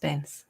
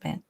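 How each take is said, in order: First: The name ends in a plain s sound. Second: The name ends with a t sound. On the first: The speaker calls it right. "It's Bence" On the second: The speaker calls it wrong. "not Bent"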